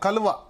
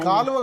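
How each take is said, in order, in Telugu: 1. మొదటి అచ్చు హ్రస్వం. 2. మొదటి అచ్చు దీర్ఘం. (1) "కాదు కలువ" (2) "కాలువ కాదు"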